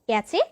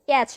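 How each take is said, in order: First: The word ends with a cheh sound. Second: The word ends with a ch sound. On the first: "ক্যাচে কিংবা ক্যাচ নয়" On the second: "ক্যাচে কিংবা ক্যাচ নয়"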